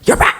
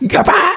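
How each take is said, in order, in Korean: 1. 목소리가 낮고 거칠고 날카로워요. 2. 목소리가 높고 가볍고 달콤해요. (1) "이상하게 한 육십 넘어가면" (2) "여자의 그 깨꼬리 같은 목소리가"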